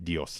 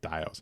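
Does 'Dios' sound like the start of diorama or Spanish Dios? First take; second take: Spanish Dios; diorama. First: It sounds like the Spanish word for God. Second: It sounds like the start of 'diorama'. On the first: The speaker calls it wrong. "I was saying like Dios, like Almighty" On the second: The speaker calls it right. "like the word diorama"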